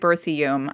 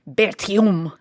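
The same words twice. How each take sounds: First: The name is said with American English sounds. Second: The name is said with French sounds. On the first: "we're going to go with an Americanized pronunciation" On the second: "in French it's something more like Berthiaume"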